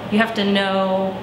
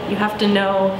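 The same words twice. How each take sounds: The two takes are said the same way.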